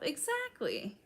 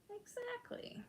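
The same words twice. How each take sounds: First: Said in the usual way. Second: Breathy stage whisper, much higher and far softer. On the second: Real, not acted. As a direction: whisper it back like a secret echo. Agreeing, then repeats whispered.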